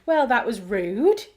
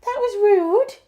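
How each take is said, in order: First: Said in the usual way. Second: Very high, loud mock telling-off; pet scolding. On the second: Real, not acted. Owner to barking dog, high pet scolding. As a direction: squeal it at the naughty dog.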